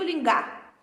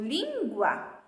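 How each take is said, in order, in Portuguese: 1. Nenhum som 'w' segue o G. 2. Um som 'w' segue o G. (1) "eu não digo lingar" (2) "eu ainda falo sim a letra U"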